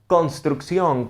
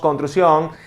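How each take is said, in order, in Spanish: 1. Cada sonido se pronuncia completo y claro. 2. Algunos sonidos se tragan y se omiten. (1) "Lo ideal o el sonido idóneo sería construcción" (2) "allí hay una mala articulación. Porque nos estamos comiendo ciertos vocablos"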